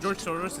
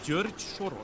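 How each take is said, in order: First: The name is said with English pronunciation. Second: The name is said with Hungarian pronunciation. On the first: The usual English rendering of the name. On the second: The way Hungarians actually say the name.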